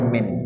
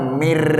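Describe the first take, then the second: First: The word ends with an n sound. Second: The word ends with an r sound. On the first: The speaker calls it wrong. "nggak boleh min" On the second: The speaker calls it right. "Abang harus baca mir"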